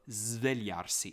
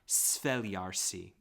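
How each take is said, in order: First: The word begins with a buzzing z sound. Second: The word begins with a hissing s sound. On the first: The speaker calls it right. "it's a zv" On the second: The speaker calls it wrong. "It's not svegliarsi. It's not like that"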